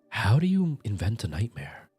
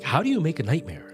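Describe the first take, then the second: First: It is said in a slow, creepy voice. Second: It is said in a lively, high-energy voice.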